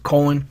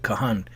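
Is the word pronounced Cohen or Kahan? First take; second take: Cohen; Kahan. First: The word is pronounced as Cohen. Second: The word is pronounced as Kahan. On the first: The speaker calls it wrong. "that's the way they say it" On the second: The speaker calls it right. "That's how you pronounce it"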